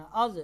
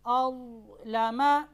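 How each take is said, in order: First: अज़ with an echoing qalqala on the ज़; wrong bounced ज़. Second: अज़लमा with a steady, unbounced ज़; ज़ held still. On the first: Teacher showing the mistake to avoid, bounced ज़. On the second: Teacher showing the correct reading, ज़ not bounced. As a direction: keep the ज़ in अज़लमा silent and still. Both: Shown as a demonstration. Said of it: "अज़ नहीं करना".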